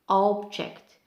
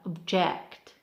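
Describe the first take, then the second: First: The stress is on the first syllable. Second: The stress is on the second syllable. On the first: It is used as a noun. "For noun we have object" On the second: It is used as a verb. "for verb we have object"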